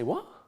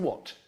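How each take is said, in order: First: The voice rises at the end. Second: The voice falls at the end. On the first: The speaker calls it right. "goes up" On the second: The speaker calls it wrong. "I don't say what"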